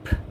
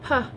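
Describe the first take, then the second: First: The sound is a short unvoiced puff of air. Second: The sound has a voiced vowel added after it. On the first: The speaker calls it right. "it's P ... where it'd be unvoiced" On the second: The speaker calls it wrong. "is not"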